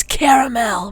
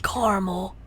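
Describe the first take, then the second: First: "caramel" said as KAIR-uh-mel; loud, full "caramel" with clear -mel ending; three-syllable caramel. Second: "caramel" said as CAR-mul; two-syllable caramel. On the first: Player correcting Mangy, "caramel" as KAIR-uh-mel. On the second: Player showing Mangy the rejected way, "caramel" as CAR-mul. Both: Shown as a demonstration. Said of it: "not caramel".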